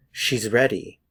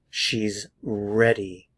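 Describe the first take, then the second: First: Said in the usual way. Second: "She's ... ready", slow with a gap between the words. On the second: Shown as a demonstration. Teacher models "She's ready" for learners, slow and word by word. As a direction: draw out "She's", pause, then a careful "ready". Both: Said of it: "Pay attention to the vowel sound".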